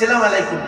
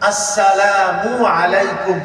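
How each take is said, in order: First: The greeting starts directly with an 's' sound. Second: The greeting starts with a clear 'a' vowel. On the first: The speaker calls it wrong. "আমরা সালাম আলাইকুম বলি" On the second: The speaker calls it right. "আ বল আ"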